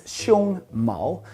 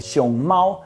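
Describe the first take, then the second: First: The first syllable stays high, the second rises. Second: The first syllable rises, the second stays high. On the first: Chest hair. "you just have to flip it around" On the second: A panda. "If you can recall that that is a first tone, then the other one has to be the second tone"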